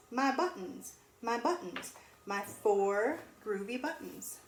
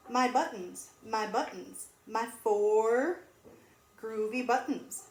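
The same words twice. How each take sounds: The two takes are said the same way.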